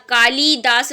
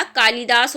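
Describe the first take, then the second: First: कालिदास with LI stretched to "lee"; wrong long I. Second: कालिदास with a quick short LI; correct short I. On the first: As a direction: say "kaa-lee-daas" for कालिदास. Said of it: "कालिदास नहीं होता". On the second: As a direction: say "kaa-li-daas" for कालिदास. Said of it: "ला पे छोटी ई की मात्रा". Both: Shown as a demonstration.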